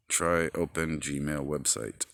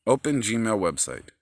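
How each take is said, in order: First: Slow, careful dictation to the phone; slow phone command. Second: Louder, impatient repeat of the command. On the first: Talking to his phone, slow and deliberate. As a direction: spell it out for the voice assistant. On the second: Phone ignored him, repeats it louder and irritated. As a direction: bark it again at the phone. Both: Real, not acted.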